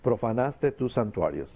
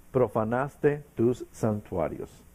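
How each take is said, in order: First: Profanaste said firmly at normal pace; plain repeat, stress on profanaste. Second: Profanaste tus santuarios drawn out slowly, weight on tus; slow, weighty reading. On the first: Preacher repeats the verse to drive it home, plain stress. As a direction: restate it plainly, hitting Profanaste. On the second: Preacher reading the verse to the congregation, slow and weighty. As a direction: lean into tus, slow and falling. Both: Shown as a demonstration. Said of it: "¿Sí?".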